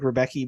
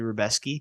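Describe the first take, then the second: First: The middle is said with a plain k sound. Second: The middle is said with an s-k sound. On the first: This is how the spelling looks like it reads. The speaker calls it wrong. "It looks like Rebecki" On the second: This is how the name is actually said. The speaker calls it right. "but it's actually Rebeski"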